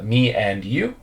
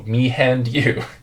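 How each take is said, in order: First: The word 'and' starts with a vowel. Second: The word 'and' starts with an H sound. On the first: The speaker calls it right. "a sound with no H" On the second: The speaker calls it wrong. "they often add an H"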